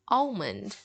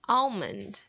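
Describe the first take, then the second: First: The L sound is pronounced in the word. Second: The L sound is pronounced in the word.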